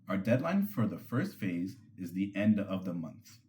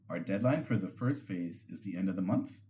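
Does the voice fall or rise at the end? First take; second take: fall; rise. First: The pitch falls at the end like a statement. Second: The pitch rises at the end like a question. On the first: The speaker states a fact with certainty. The speaker calls it right. "ending them with a steady or downward inflection" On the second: The speaker sounds unsure and seeks approval. The speaker calls it wrong. "That upward tilt at the end completely undermines their authority"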